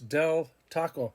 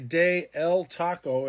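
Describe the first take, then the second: First: De and el merge into one syllable. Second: De and el are said as separate syllables. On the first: The speaker calls it right. "it's del taco" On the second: The speaker calls it wrong. "they don't say de el taco"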